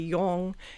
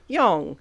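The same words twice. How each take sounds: First: The pitch stays level throughout the word. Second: The pitch falls down across the word. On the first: "some words would like be flat" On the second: "other ones would f- fall down"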